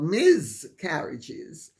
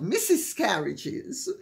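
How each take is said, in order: First: The first part sounds like miz with a buzz. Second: The first part sounds like the word missus. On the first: "definitely not Miz Carriages" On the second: "not Missus Carriages"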